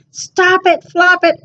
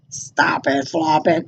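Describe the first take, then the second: First: A touch higher, lightly voiced animals; mild scolding from the farm friends. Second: Low, soft grumbling cow; grumbled. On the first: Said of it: "and Cat and Pig said". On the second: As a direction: grumble it out lower and quieter. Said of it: "grumbled Cow". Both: A narrator's reading.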